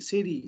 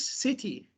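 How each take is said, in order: First: The t sounds like a soft d. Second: The t is a clear t sound. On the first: "But in American English" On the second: "In British English"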